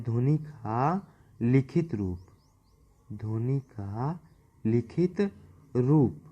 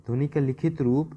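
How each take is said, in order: First: Slow and drawn out, with gaps between words; slow dictation. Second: Said in the usual way. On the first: Shown as a demonstration. Teacher dictating the phrase for students to copy, slow. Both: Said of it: "note करते जाएंगे".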